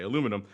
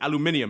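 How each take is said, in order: First: It is said the American way. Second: It is said the British way.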